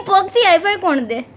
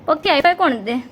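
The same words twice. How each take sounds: First: Laughing through the question; પગથી હાઈ ફાઈ કોણ દે? said through a laugh. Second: Said in the usual way. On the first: Real, not acted.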